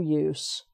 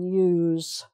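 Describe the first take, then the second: First: The word ends with a hissing s sound. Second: The word ends with a buzzing z sound. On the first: It is the noun. "no use is a noun. So that's the S sound" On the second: It is the verb. "That's the action word, ... so that's the Z there"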